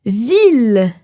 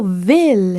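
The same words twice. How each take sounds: First: Ville with a tight i, /vil/; closed i in ville. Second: Ville with an open i, near /vɛl/. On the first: Teacher showing the closed i in ville. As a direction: say ville with the mouth almost closed. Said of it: "On ne prononce pas ville". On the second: Teacher giving the open Quebec i in ville. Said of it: "mais plutôt ville". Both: Shown as a demonstration.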